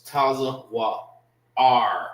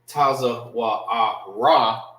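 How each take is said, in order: First: The word ends on the R sound. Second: The word ends with an extra vowel sound. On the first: The speaker calls it right. "It's Taza Wa'ar" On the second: The speaker calls it wrong. "it will not be Taza Wa'ara"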